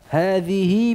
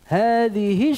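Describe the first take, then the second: First: The final vowel is lengthened about two counts. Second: The final vowel is short with no lengthening. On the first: "Dibaca dalam keadaan wasal dengan silah sughra" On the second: "Dalam keadaan wasal tidak ada silahnya"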